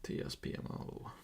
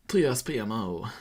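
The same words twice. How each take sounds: First: Voiceless whisper of the letters; hushed, whispered spelling-out. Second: Said in the usual way. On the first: Real, not acted. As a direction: whisper each letter under your breath.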